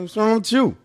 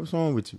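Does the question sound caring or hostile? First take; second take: hostile; caring. First: The question sounds harsh and confrontational. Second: The question sounds warm and concerned. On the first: The asker seems to be picking a fight. The speaker calls it wrong. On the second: The asker genuinely wants to help. The speaker calls it right. "yo, Dom, you good, bro?"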